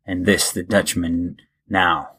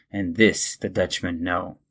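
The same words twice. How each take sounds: First: "now" said to rhyme with cow, not know; typo read aloud. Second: Said in the usual way. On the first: Acted. Host reading the poem's typo aloud to listeners, "now" as in cow. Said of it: "it said now, but I think it sh-, was supposed to say no". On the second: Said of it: "it said now".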